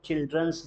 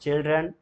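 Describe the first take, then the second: First: "चिल्ड्रंस" with an added s at the end; "चिल्ड्रंस", a hissed s tacked on after the n; wrong plural pronunciation. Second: "चिल्ड्रन" ending cleanly on n; "चिल्ड्रन", final n and nothing after it; correct plural pronunciation. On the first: Retold or imitated. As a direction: quote the mistake, "चिल्ड्रंस" ending in -ns. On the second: Shown as a demonstration. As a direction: model "चिल्ड्रन" with no s at the end. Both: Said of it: "that is wrong".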